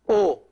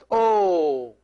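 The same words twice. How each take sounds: First: The vowel is kept short. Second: The vowel is held long. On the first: "this O alone" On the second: "this big O, is pronounced O"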